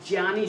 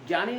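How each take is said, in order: First: The word begins with a 'jy' sound. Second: The word begins with a 'gy' sound. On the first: The speaker calls it right. "ज्या कहते हैं" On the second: The speaker calls it wrong. "ज्ञानी नहीं"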